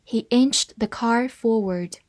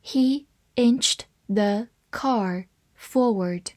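First: Said in the usual way. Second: Very slow, word-by-word reading. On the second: Shown as a demonstration. English teacher models the sentence for learners, reading slowly. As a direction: leave a clear gap after each word. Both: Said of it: "慢慢来读".

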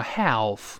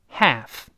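First: "half" with the l wrongly sounded, like ha-olf; mistaken pronunciation. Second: "half" as haff, straight to the front a; silent L. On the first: Teacher warning students against an error, wrongly sounded l. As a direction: say "half" slowly with an l-coloured vowel. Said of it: "不要读成half". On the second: Teacher giving the corrected reading, silent L. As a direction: say "half" with no trace of l. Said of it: "直接发一个哎就好了". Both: Shown as a demonstration.

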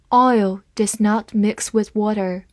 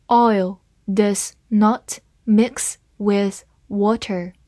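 First: Said in the usual way. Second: Slow, word by word; slow reading. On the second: Shown as a demonstration. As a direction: read it slowly and clearly for learners. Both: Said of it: "好，慢慢来读。".

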